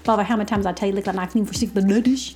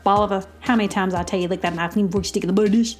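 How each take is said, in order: First: It is said very fast. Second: It is said at a normal speed.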